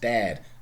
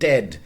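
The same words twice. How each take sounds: First: The vowel is drawn out long. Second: The vowel is short, as in modern English. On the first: This is how it sounded in Chaucer's time. "starting out in Middle English as a long vowel eh, something like this" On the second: This is the present-day pronunciation. "all of those those must have been shortened"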